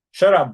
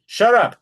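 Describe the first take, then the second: First: Sharp, loud snapped order; angry. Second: High, loud furious snap; angry shout. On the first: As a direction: snap it out at him. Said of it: "we don't like these". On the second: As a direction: bark it at him in fury. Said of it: "to indicate that Bob is angry". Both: Shown as a demonstration.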